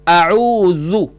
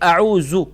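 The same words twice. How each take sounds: First: The middle consonant is a soft 'dh' sound. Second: The middle consonant is a hard 'z' sound. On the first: The speaker calls it right. "यह जाल सॉफ्ट करके पढ़ना है" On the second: The speaker calls it wrong. "अक्सर पढ़ते हैं"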